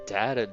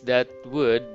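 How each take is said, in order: First: The two words are joined into one syllable. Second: Both words are said fully and separately. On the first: "but it's shortened, it's contracted" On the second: "It's that would"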